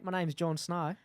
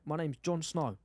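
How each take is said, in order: First: It is spoken in an Australian accent. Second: It is spoken in a South African accent. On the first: "Do it in a Australian" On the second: "South African"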